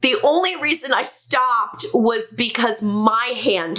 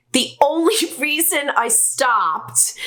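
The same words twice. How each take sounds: First: Said in the usual way. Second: Laughing. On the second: Real, not acted. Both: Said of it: "oh, this is awful".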